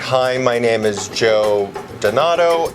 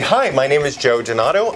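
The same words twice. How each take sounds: First: It is read flatly with little energy. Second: It is read with lots of excited energy. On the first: The speaker calls it wrong. "just physically verbalizing the words" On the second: The speaker calls it right. "with a lot of excitement"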